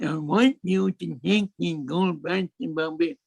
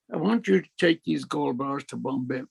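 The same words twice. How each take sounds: First: "Bombay" blurred, consonants slurred as by a cleft palate; imitating cleft palate speech. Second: Said in the usual way. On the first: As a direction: mimic the smuggler's cleft palate, lightly. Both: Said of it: "this is the way he spoke".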